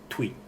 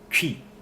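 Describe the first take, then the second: First: The word begins with a plain t sound. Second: The word begins with a ch sound. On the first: The speaker calls it wrong. "If you don't know how it's pronounced, you'll be saying tui" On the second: The speaker calls it right. "But it's actually chi"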